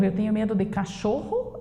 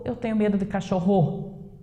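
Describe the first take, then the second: First: "cachorro" stressed on cho, as a question; correct middle stress. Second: "cachorro" accented on rro, the last syllable; shifted final stress. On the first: Teacher offers the right option, stressing cho in "cachorro". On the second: Teacher tests the wrong option, stressing rro in "cachorro". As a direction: push the accent to the end of "cachorro". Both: Shown as a demonstration. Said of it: "Então, é o xô".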